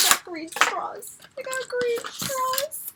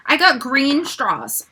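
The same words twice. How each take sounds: First: Soft, slow squeal climbing high; hushed delight. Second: Said in the usual way. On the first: Real, not acted. Fan repeating she got green straws, hushed delight. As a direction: squeak it slowly and softly.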